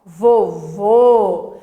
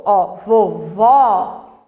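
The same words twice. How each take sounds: First: "vovô" ending in a tight closed ô, louder and falling; teacher demo of the closed ô in "vovô"; closed o sound. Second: "vovó" with a wide open ó, drawn out very slowly and louder; slow teacher demo of the open ó in "vovó"; open o sound. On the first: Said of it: "ele é mais fechado". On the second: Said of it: "ele é mais aberto". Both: Shown as a demonstration.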